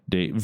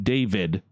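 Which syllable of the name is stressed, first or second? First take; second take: second; first. First: The stress is on the second syllable. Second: The stress is on the first syllable. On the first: "in Russian it would be David" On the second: "my name David"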